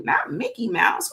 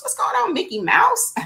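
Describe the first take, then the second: First: Said in the usual way. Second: A high, playful cartoon-mouse hello; squeaky Mickey greeting. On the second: Host greets viewer named Mickey Mouse in a high cartoon voice.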